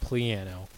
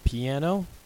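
First: It is said with an L sound after P. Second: It is said with no L sound after P. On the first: The speaker calls it right. "there is an invisible L in there. It's actually pronounced" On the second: The speaker calls it wrong. "Most people call it a piano"

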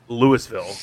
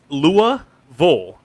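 First: The last syllable is a clear 'vill' sound. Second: The last syllable is a reduced 'vull' sound. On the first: The speaker calls it wrong. "it's spelled Louisville, but in Kentucky, no one pronounces Louisville" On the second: The speaker calls it right. "So the vill is actually vull"

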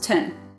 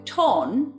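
First: The vowel is a reduced vowel. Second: The vowel is a full vowel. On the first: "becomes ton" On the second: "So the ton becomes ton"

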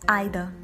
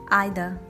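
Both takes have the same delivery.

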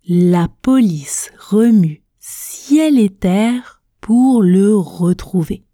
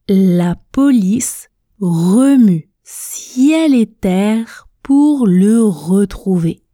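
The two takes are said the same way.

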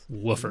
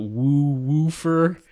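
First: The word is said with an American accent. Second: The word is said with a Canadian accent. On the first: "I try to make sure it comes out woofer" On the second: "if I don't think about it, I do say woofer, and it comes out woofer"

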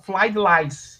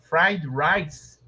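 First: It is said in a mock Chinese accent. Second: It is said with a normal r sound.

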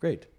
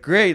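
First: The word is said flatly, without emotional emphasis. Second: The word is said with lively, excited emotion. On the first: The speaker calls it right. "I can say it like that" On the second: The speaker calls it wrong. "Like I can't say like"

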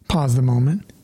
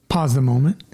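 The two takes are said the same way.

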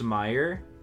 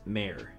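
First: The name is said its customary spoken way. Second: The name is said following its letters. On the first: "It's pronounced Mayer" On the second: "but it's spelled like Mayer"

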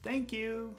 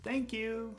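First: It is said in a warm, friendly tone. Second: It is said in a warm, friendly tone.

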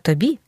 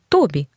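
First: The stress is on the second syllable. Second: The stress is on the first syllable. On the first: The speaker calls it right. "а тобі" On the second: The speaker calls it wrong. "правильно ж не тобі"

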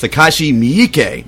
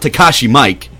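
First: The surname does not sound like English Mike. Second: The surname sounds like the English name Mike. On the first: The speaker calls it right. "It's Takashi Miike" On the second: The speaker calls it wrong. "It's not Takashi Mike"

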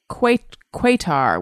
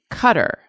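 First: It sounds like 'kwa-tar', starting with 'kw'. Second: It sounds like 'cutter', starting with plain 'k'. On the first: This is how it was said in the past. "I grew up with it being called Quatar" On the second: This is how it is said now. "the country Qatar is pronounced Cutter"

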